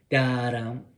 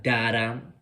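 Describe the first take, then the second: First: "Da-dum" swung, long first beat, short "dum". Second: "da-dum" said straight and slow, even beats. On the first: Teacher showing swung eighths as da-dum. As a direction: lilt the "Da-dum" like a triplet. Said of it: "Swing these eighth notes". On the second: Teacher showing the wrong straight da-dum. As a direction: give "da-dum" two equal stiff beats. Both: Shown as a demonstration.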